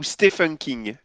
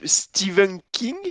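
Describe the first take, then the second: First: The name is said with an F sound. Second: The name is said with a V sound. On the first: "ou un F" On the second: "un V"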